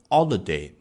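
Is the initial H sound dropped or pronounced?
dropped. The word starts without any H sound.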